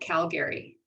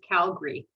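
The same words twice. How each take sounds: First: The middle vowel is pronounced, three syllables. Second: The middle vowel is dropped, two syllables. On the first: The speaker calls it wrong. "not Calgary" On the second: The speaker calls it right. "It's actually pronounced Calgary, You pretend you don't see the second A"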